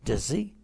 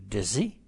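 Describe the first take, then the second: First: The two words are blended into one. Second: The same.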